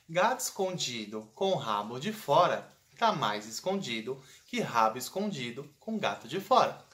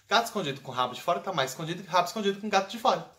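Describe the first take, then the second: First: It is said slowly. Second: It is said fast.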